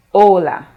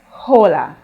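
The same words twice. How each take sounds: First: Hola starting straight on the o, h silent. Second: Hola said with the h sounded, like English hello; wrong English h. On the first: Teacher showing students the right way, h silent. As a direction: drop the h and begin on the o of hola. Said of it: "You start from the O". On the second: Teacher showing students the wrong way, h pronounced. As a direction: start hola with a breathy English h. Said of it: "we do not say hola". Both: Shown as a demonstration.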